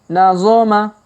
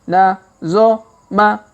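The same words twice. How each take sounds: First: The syllables are read quickly. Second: The syllables are read slowly. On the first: "Kalau dipercepat" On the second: "Kita baca pelan-pelan"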